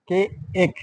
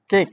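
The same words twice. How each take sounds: First: কে এক broken into two beats; sounding out. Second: Said in the usual way. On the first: Shown as a demonstration. Teacher asking pupils to listen well, sounding out. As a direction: say কে, then a separate long এক. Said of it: "একটা উচ্চারণ হচ্ছে". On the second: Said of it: "তোমরা ভালো করে".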